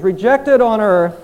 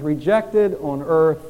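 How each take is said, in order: First: "rejected on earth" pushed louder and slow; louder emphatic. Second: Slow solemn reading. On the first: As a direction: press hard on "rejected". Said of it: "That was the attitude of the apostles". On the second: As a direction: read the father's wire slowly and gravely. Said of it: "oh, that we could print this in our minds". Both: Shown as a demonstration.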